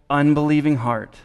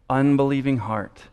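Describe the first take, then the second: The two takes are said the same way.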